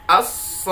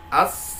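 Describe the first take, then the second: First: "as-sakhah" held long, then lifted on the doubled kh; stretch, then punch "-khah"; an-nabr on kha. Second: "as-sakhah" held level into an unstressed ending; flat, no nabr. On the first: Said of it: "Ada nabar". ("as-sakhah" dengan tekanan naik) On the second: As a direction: glide evenly into "-khah". ("as-sakhah" datar tanpa tekanan) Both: Shown as a demonstration.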